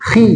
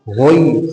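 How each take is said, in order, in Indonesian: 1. Suku kata khi diucapkan tipis dan ringan. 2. Suku kata khi diucapkan tebal dan berat. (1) "ketika kasroh dibaca tipis"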